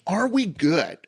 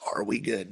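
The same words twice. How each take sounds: First: It is said in his normal speaking voice. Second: It is said in a deep movie-trailer voice.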